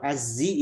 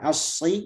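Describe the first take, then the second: First: The consonant is a plain z sound. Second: The consonant is a heavy emphatic s. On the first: "Kalau azzi itu murni zai" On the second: "kalau asyi itu murni sad"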